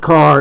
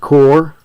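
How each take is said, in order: First: It is said with a standard vowel. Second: It is said with the local Appalachian vowel. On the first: "It's not a car" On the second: "it's a core"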